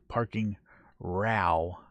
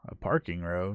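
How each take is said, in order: First: The word row rhymes with wow. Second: The word row rhymes with go. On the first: An argument or disagreement. The speaker calls it right. "Like wow, row" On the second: A line, like an aisle of parked cars. The speaker calls it wrong. "So this is how you're going to read it in America"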